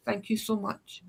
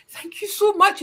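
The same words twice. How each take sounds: First: 1 softer thanks. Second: Higher, louder gushing thank you; overjoyed thanks. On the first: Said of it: "I was just like". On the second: Relieved tourist thanks the stranger, gushing and higher. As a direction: gush with grateful relief. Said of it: "I have never been so grateful". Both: Retold or imitated.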